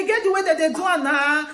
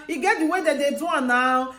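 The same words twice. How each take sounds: First: A firm, sure-of-himself statement; with authority. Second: Said in the usual way. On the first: Retold or imitated. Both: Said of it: "he dey talk with authority".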